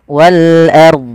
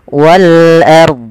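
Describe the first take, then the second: No difference in how they are said.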